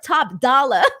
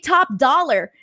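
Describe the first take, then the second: First: The R at the end is dropped. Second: The R at the end is pronounced. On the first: "drop the R. It's Dala" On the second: "I have to say top dollar"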